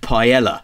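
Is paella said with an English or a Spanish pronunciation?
English. The word is said with an English-style pronunciation. The speaker calls it right. "Excuse me, it's pronounced paella"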